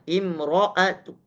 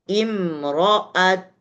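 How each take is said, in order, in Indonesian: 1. Vokal pendek yang lemah mengikuti huruf t di akhir. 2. Huruf t di akhir dilepas dengan bibir membulat. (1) "Raum tetap dibaca harokatnya" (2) "dengan cara ismam ... keluar dengan cara monyong bibirnya"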